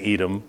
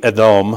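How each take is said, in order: First: Said in the usual way. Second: Edom with the weight on its last syllable, eh-DOME; stress on last syllable. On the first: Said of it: "we just say Edom". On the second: Shown as a demonstration. Preacher showing how Hebrew names really read, stressed on last syllable. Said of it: "usually the emphasis is on the last syllable".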